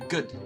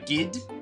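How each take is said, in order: First: The vowel sounds like a short 'oo'. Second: The vowel sounds like a short 'i'. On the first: The speaker calls it right. "it's just a good" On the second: The speaker calls it wrong. "it's not a gid"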